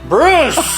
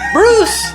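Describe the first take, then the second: First: The name is said loudly and sharply. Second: The name is said softly and mildly. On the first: The speaker calls it right. "It was more like Bruce. Like that" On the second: The speaker calls it wrong. "it was not like Bruce"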